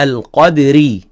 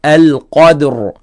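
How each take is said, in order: First: "القدري" with the final R carrying an ee vowel; connected form. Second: "القدر" ending on a vowelless, heavy R; pausal form. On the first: Teacher showing how to join the word, connected demonstration. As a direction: let the last R of "القدري" run into a long, light ee. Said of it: "إذا نريد نوصلها". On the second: Teacher showing how to stop on ra, pausal demonstration. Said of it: "أما إذا نقف". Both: Shown as a demonstration.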